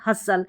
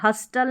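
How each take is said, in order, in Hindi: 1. बीच में t की आवाज़ साइलेंट होती है। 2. बीच में t की आवाज़ बोली जाती है। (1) "नहीं हसल" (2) "हस्टल नहीं"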